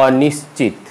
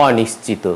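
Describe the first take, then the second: First: অনিশ্চিত stopped on the final t; no vowel after অনিশ্চিত; common mispronunciation. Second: অনিশ্চিত with a final "o"; correct pronunciation. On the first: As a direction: say অনিশ্চিত as "awnishchit". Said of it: "এটিও আমরা". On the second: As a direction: say অনিশ্চিত as "awnishchito". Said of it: "উচ্চারণ আমাদের করতে হবে". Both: Shown as a demonstration.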